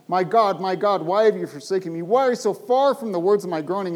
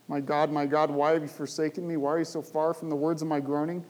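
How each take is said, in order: First: Loud, pleading cry to God; loud anguished plea from the psalm. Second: Said in the usual way. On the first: Acted. Preacher voicing the psalmist's anguished cry.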